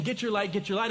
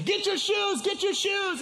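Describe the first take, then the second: First: Said in the usual way. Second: High, frantic holler; re-enacted urgent shout, pitched way up; retold panicked yelling. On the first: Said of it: "as I'm thinking I'm saying". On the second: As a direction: yell the wrong order in mock panic. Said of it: "in my panic".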